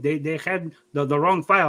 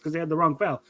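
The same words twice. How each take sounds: First: Imitated Mexican-accented dad explaining himself; dad's Mexican accent. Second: Said in the usual way. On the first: Son mimics dad blaming the file, Mexican accent. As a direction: defend yourself in dad's mock Mexican accent. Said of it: "I give you an accent". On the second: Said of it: "differentiate between me talking and you".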